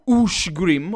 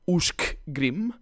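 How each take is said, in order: First: The middle sound is a plain 'sh'. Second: The middle sound is 'sh' followed by 'k'. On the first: The speaker calls it right. "The C S, or the S C is sh" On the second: The speaker calls it wrong. "and not Ushkgrim"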